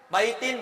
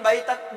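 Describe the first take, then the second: First: The word ends with an added -in sound. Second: The word ends with an added -an sound.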